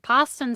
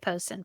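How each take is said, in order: First: The first vowel sounds like the vowel in 'pasta'. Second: The first vowel sounds like the vowel in 'post'. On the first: The speaker calls it wrong. "Poston sounds weird. Sounds like you're trying to say pasta" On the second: The speaker calls it right. "I'm gonna say Poston"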